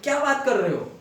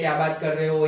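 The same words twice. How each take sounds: First: It is read with lively, questioning expression. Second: It is read flatly, without any expression. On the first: The speaker calls it right. "Question mark हो तो तुम्हें भी ऐसे पढ़ना है" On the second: The speaker calls it wrong. "हम ऐसे ही पढ़ रहे हैं ... ये वो सीधे सीधे नहीं पढ़ना है"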